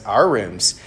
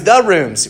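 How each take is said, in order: First: Unruffled correction at usual pitch; dry, firm little interjection; bickering correction. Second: High, loud, exasperated retort; irritated concession, pitched way up; bickering retort. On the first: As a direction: calmly correct "rooms" to shared ownership. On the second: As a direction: throw "rooms" back indignantly. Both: Acted. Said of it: "they're bickering with each other".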